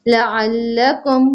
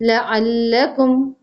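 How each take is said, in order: Both takes have the same delivery.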